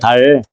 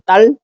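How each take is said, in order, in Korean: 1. 첫소리 자음은 평음이고 부드러운 d예요. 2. 첫소리 자음은 경음이고 겹친 d예요. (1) "원어가 달이야 달" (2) "정확하게 말하면 딸이거든 딸"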